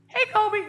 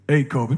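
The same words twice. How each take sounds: First: The voice is high and thin, like a child. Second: The voice is deep, with bass from the chest. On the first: "what are you, twelve? Grow up" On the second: "I got to get some bass in the voice"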